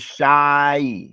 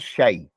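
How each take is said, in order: First: The vowel sounds like the one in 'sigh'. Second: The vowel sounds like the one in 'say'. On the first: This sound gives the word for tea. The speaker calls it right. "It's shy" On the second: This sound gives the word for a thing. The speaker calls it wrong. "sometimes the foreigners they they they call it shay. It's not shay"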